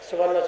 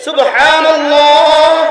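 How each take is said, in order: First: It is said quickly and rushed. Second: It is said slowly and carefully.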